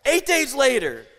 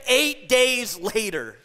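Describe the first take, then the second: First: Said in the usual way. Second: Eight days later drawn out slowly, EIGHT leaned on; slow emphasis. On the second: Shown as a demonstration. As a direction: savour each word of Eight days later. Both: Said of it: "Did you catch that?".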